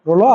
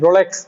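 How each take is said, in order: First: The word ends with an 'o' vowel. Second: The word ends with a 'ks' sound. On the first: The speaker calls it right. "ওটা উচ্চারণ হচ্ছে রোলস বা রোলো" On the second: The speaker calls it wrong. "আপনারা যেটাকে অনেকে বলেন রোলেক্স বা রোলক্স, ওই রকম না"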